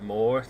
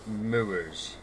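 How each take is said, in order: First: The vowel sounds like the word 'more'. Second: The vowel sounds like the word 'moo'. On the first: Other people say it this way. "Some people pronounce it Moor" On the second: This is the local Lancashire way. "I say Moors. That's what we say in Lancashire"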